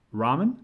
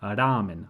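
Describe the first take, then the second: First: "ramen" said the English way, RAH-men. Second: "ramen" with a light tapped r and short, even vowels; Japanese ramen. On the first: Teacher shows the English reading of ramen. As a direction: say "ramen" like an English speaker would. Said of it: "a little bit different in Japanese". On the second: Teacher models the Japanese pronunciation of ramen. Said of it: "read it like it was Japanese". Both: Shown as a demonstration.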